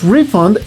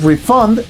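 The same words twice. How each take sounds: First: The stress is on the first syllable. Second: The stress is on the last syllable. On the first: The concept of a repayment. "estás hablando de un noun" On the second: The action of giving money back. "se refiere a la acción de regresar el dinero"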